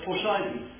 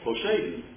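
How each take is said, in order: First: The middle vowel sounds like 'eye'. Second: The middle vowel sounds like 'ay'. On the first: The speaker calls it wrong. "that's the way it's pronounced today. And I just don't think that's correct" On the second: The speaker calls it right. "It's a long A"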